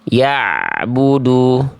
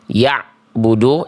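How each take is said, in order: First: The ain sound flows slightly into the next. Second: The ain sound is cut off abruptly. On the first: The speaker calls it right. "tapi bunyi ainnya diantar" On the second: The speaker calls it wrong. "jangan sampai cuma dibaca ... jangan dihentak"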